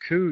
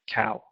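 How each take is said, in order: First: The vowel is a long oo sound. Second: The vowel is an ow sound. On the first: This is the older pronunciation. "coo uses this oo sound" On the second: This is the later pronunciation. "that oo changed to an ow, and we got cow"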